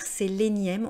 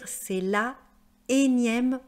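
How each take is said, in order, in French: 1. La voyelle de l'article tombe et se lie au mot. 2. La voyelle de l'article est conservée devant le mot. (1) "on va pas dire" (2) "il n'y aura pas d'élision"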